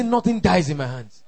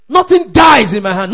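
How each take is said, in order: First: Said in the usual way. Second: Loud, high, forceful shout; preacher's fierce shouted declaration; aggressive declaration. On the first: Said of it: "Say it like you mean". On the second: Shown as a demonstration. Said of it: "make that declaration aggressively".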